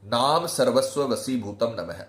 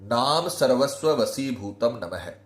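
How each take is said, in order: No difference in how they are said.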